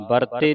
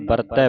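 First: ਵਰਤੇ ending in a close "tay"; close final vowel. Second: ਵਰਤੈ ending in an open "tai"; open final vowel. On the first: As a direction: say ਵਰਤੇ as "bartay", single-lavan sound. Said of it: "ਵਰਤੇ ਨਹੀਂ ਪੜਨਾ". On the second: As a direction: say ਵਰਤੈ as "bartai", dulavan sound. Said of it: "ਵਰਤੈ ਪੜਨਾ". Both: Shown as a demonstration.

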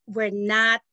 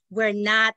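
The two takes are said the same way.

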